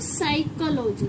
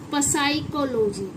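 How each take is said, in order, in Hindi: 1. शब्द 's' की आवाज़ से शुरू होता है, 'p' नहीं। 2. शब्द 's' से पहले 'p' की आवाज़ से शुरू होता है। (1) "पी क्या हो गया यहाँ पर हमारा, साइलेंट हो गया" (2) "ना कि"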